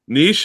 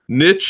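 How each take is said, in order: First: The word is said with a French-style pronunciation. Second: The word is said with an American-style pronunciation. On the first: "how it's spoken in its native tongue. It's like a French word" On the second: "how it's translated to in American English"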